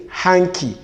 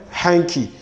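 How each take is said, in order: Both takes have the same delivery.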